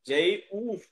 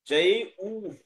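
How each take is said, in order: The two takes are said the same way.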